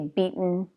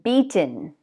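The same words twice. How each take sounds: First: The T in the middle is softened, not released. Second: The T in the middle is clearly released.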